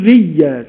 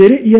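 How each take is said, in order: First: ريا with no glottal stop, a plain long vowel; hamza dropped. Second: رئيا with a clear glottal stop, said louder; hamza kept. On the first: (ريا بلا همزة) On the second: (رئيا بهمزة واضحة) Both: Shown as a demonstration. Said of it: "ما ينفعش يقول ريا".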